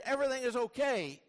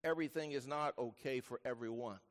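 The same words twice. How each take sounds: First: High, emphatic declaration; upbeat declaration. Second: Low, soft, measured statement; sober correction. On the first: Acted. Preacher tempted to just say all is fine, high declaration. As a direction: proclaim it in a raised voice. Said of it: "for me to just say". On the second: Real, not acted. Preacher wants listeners to know otherwise, low sober voice. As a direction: drop low and soft for the hard truth.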